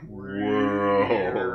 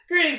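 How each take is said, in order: First: It is said very slowly. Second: It is said fast.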